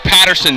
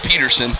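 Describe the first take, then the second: First: The first syllable sounds like 'pat'. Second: The first syllable sounds like 'pet'. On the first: The speaker calls it right. "it's Coach Patterson" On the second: The speaker calls it wrong. "not Peterson"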